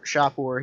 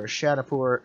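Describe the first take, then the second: First: Shahpur said as SHAH-poor, two syllables; corrected name. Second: Shanapur said as SHAN-a-poor, stumbling on the name; first try at Shahpur. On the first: Correcting himself on the map name, Shahpur in two syllables. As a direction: fixes it to Shahpur, short and clean. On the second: Reading the map name aloud, misread as Shanapur. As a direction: misreads Shanapur with an extra syllable, then catches it. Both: Real, not acted. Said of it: "Shahpur here".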